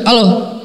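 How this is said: It is said roughly, in a harsh voice.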